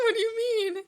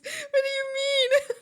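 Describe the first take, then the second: First: Mock indignant. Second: High, slow, drawn-out mock outrage; hammed-up indignant what do you mean. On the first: Mock offended reply to chat. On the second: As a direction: stretch it out in fake shock. Repeated louder, drawn out.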